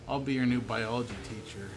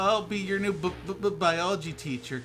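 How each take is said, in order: First: The words are read smoothly without stuttering. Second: The words are read with a twitchy stutter.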